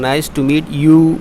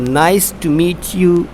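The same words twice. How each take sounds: First: The pitch does not fall on the final word. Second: The pitch falls on the final word. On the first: The speaker calls it wrong. "ऐसे नहीं होता ये" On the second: The speaker calls it right. "इसका जो intonation है उसको आपने क्या करना है, फॉल करना है"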